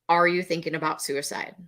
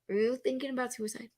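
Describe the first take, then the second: First: The question sounds calm and confident. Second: The question sounds hesitant and nervous. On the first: The speaker calls it right. "Very different in the delivery, in the tone, in my confidence" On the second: The speaker calls it wrong. "um, are you, oh gosh, are you, uh"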